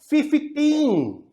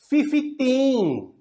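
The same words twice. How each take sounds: Both takes have the same delivery.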